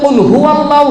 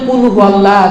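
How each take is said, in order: First: The first word starts with a deep throat q. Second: The first word starts with a plain k. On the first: Say: Allah is one. The speaker calls it right. "এই যেমন আমরা বলি কুল হুয়াল্লাহু আহাদ, আল্লাহ এক" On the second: Eat: Allah is one, a changed meaning. The speaker calls it wrong. "তখন হয়ে যাবে আল্লাহ খায় এক, হবে না, অর্থটা পাল্টিয়ে যাবে"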